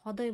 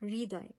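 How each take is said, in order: First: The first syllable is said without an r sound. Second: The first syllable is said with an r sound. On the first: The speaker calls it wrong. "আমরা তো হদয় বলি না" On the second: The speaker calls it right. "রি আমরা উচ্চারণ করি"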